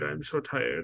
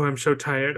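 First: High and softer, trailing up; mock whine fading to a hush. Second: High whiny mock sigh; hammed-up feeble complaint; lightly hammed-up tired whine. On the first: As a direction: fade into a feeble whimper. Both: Mocking Mitchell's fake weakness.

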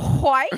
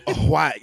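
First: Loud "White" with H before it; hwhite. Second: "white" with breathy hw onset; hwhite. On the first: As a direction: stress the breathy H in "White". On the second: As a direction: say "white" as hwite, aspirated. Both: Shown as a demonstration. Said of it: "You put the H in front of it".

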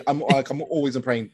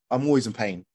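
First: A hint of a weary mum, lightly voiced; proper mum. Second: Said in the usual way. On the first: Mum moaning to healers, lightly voiced weary mum. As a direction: give it a worn-out mum's sigh, understated. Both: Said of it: "Like, like a proper mum".

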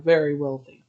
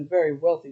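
First: "very wealthy" given a little extra emphasis; stress on VERY WEALTHY. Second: Said in the usual way. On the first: Real, not acted. Narrator correcting herself to underline the fortune, emphasis on "very wealthy". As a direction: lean lightly on the words "very wealthy". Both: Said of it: "Let me emphasize the word very wealthy".

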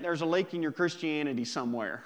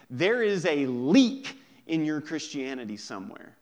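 First: Put-on "lake" for leak, said in a light country accent, a bit fast. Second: Said in the usual way. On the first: Preacher finishing Billy Sunday's quote in a mild country accent. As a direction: land the punchline in a mild Southern country accent. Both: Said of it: "You gotta say it in a country accent".

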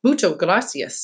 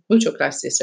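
First: Said in the usual way. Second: Put-on Spanish thanks in a mild American accent; lower, Americanized "Mucho gracias"; terrible American accent. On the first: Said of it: "Summer said to Louisa". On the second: Charlotte repeats thanks to the babysitter, terrible American accent. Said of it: "in my terrible American accent".

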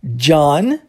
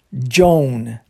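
First: "John" with an open ah, low and rising; John versus Joan. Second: "Joan" with an oh-glide, low; Joan versus John. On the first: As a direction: contrast "John", said "Jahn". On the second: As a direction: contrast "Joan", rhyming with "bone". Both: Shown as a demonstration. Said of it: "É diferente".

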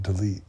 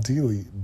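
First: "delete" with a short first vowel, di-LEET; corrected delete. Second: "delete" with a long DEE at the start; mispronounced delete. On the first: Speaker compares her odd pronunciation, corrected "delete" as dih-leet. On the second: Speaker wonders if her accent changed, mispronounced "delete" as dee-leet. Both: Shown as a demonstration. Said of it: "why did I say it like that".

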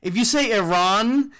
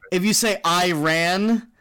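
First: "Iran" as ee-RAHN, broad second vowel; ee-RAHN pronunciation. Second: "Iran" as eye-RAN, flat a; eye-RAN pronunciation. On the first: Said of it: "you're trying to say it like they say it". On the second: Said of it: "when the Bush administration started saying it". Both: Shown as a demonstration.

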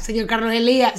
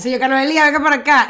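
First: Said in the usual way. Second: Louder call, rising on Elías. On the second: Acted. Mock nurse calling the old man back, raised call. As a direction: summon him across the room.

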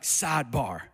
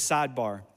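First: Lightly imitated church pastor, drawn out; preaching pastor. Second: Said in the usual way. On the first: Pastor imitating a traditional church preacher, preaching pastor. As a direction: announce it like a pastor mid-sermon. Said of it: "the pastor will be preaching, and he'll be like".

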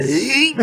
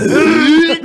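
First: A higher, strained little grunt; lightly imitated fat guy's groan; mock grunt. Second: A loud, high, strained grunt through laughter; hammed-up fat guy's groan while laughing. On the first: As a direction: grunt as if sitting down is work. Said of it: "Ele fala". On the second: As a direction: heave it out like getting up hurts. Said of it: "ele fala".

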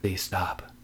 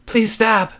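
First: Small, soft plea; whimper. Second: High, loud screamed plea. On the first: Terrified David begs his wife, soft whimper. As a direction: whimper it under your breath. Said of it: "he whimpered". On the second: Wife screams her plea back at David, high scream. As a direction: scream it out sharply. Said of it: "she screamed". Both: A narrator's reading.

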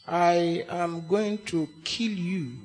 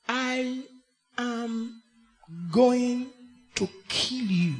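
First: Soft, slow, tantalizing threat, much lower; sonorous, seductive. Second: Very soft, lingering, seductive threat; sonorous, seductive. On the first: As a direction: draw out kill you seductively. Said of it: "very mesmerizing and tantalizing phrase". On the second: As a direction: purr the threat like a caress. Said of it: "in a very sonorous and seductive way". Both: Shown as a demonstration.

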